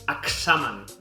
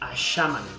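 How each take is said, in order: First: The x is a voiceless ks sound. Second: The x is a soft sh sound. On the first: "No és com la X de taxi, no és examen" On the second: "no és com la X d'aixeta, no és aixamen"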